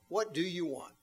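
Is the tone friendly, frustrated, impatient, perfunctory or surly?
friendly. It sounds warm and friendly.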